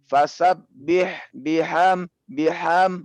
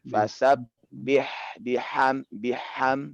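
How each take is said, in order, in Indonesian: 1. Bunyi h-nya bersuara dan bertekanan, tidak berdesah. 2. Bunyi h-nya lemah, rendah, dan berdesah. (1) "gabung antara eh, hamas dengan jahar" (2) "dengan bacaan eh, yang lemah"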